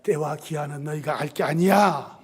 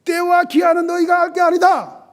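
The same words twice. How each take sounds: First: Low, soft, unyielding rebuff; cold dismissal. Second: High, loud pronouncement that shuts them down; embarrassing rebuke. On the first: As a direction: turn them away coolly in a lowered voice. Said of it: "참 매정하실 때도 있어요". (낮고 조용하게 매정히 잘라 말하듯) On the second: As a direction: rebuke them sharply in a raised voice. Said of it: "아주 민망하게 만듭니다". (무안하게 높고 큰 목소리로 꾸짖듯) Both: Acted.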